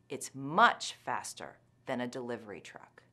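The word 'much' is given strong stress. "The second time, I'll put a lot of stress on the intensifier"

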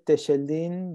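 The name is said with a 'sh' sound. This is the local regional pronunciation. "we say Techeldin because we say shh in Argentina"

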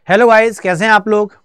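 It is said in a low, male-sounding voice. A male teacher is speaking. "ये [name] sir की आवाज है।"

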